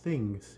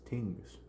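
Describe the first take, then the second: First: The word begins with a th sound. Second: The word begins with a plain t sound. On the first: The speaker calls it wrong. "It is not things" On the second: The speaker calls it right. "it is tings"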